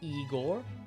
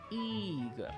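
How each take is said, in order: First: The stress is on the second syllable. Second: The stress is on the first syllable. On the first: The speaker calls it wrong. "we'll start by saying Igor. It kind of sounds alright" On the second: The speaker calls it right. "the stress is on the first syllable again"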